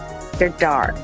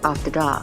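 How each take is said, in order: First: It is said in an American accent. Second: It is said in an Australian accent. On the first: The speaker calls it right. "Yeah, you did it" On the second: The speaker calls it wrong. "I did Aussie just then"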